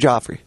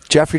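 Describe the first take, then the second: First: The first syllable sounds like 'joff'. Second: The first syllable sounds like 'jeff'. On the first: The speaker calls it right. "Is that how you say it? Joffrey?" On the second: The speaker calls it wrong. "I've been calling him Jeffrey"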